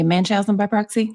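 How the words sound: The term is said in the speaker's regional accent. "With my accent, a lot of times it's instinctive to say"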